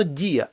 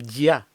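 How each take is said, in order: First: «дія» as two syllables, і stressed; split diphthong. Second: «дя» in a single syllable, stress on я; unsplit diphthong. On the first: Teacher gives the needed form, vowels split. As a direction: break «дія» apart, leaning on і. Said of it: "А потрібно". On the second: Teacher shows what it would be, diphthong merged. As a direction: glide straight into the vowel of «дя». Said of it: "було б". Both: Shown as a demonstration.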